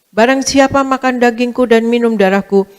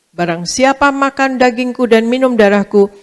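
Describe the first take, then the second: Both takes have the same delivery.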